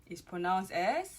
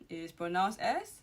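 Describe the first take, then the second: No difference in how they are said.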